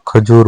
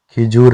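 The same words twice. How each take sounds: First: खजूर with short a first; correct form. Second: खिजूर with i in first syllable; wrong form. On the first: Teacher giving the correction, खजूर opening on kha. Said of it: "होता है". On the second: Teacher showing learners the mistake, खिजूर opening on khi. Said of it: "नहीं होता". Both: Shown as a demonstration.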